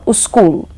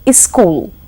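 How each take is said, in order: First: A u vowel comes before the s. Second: An i vowel comes before the s. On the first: "or uskul" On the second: "becomes iskul"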